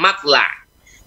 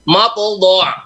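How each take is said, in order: First: The lam is pronounced light and thin. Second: The lam is pronounced heavy and dark. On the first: The speaker calls it wrong. "Jadi tidak" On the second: The speaker calls it right. "Contoh yang di juz tiga puluh itu"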